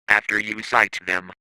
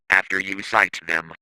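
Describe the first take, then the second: No difference in how they are said.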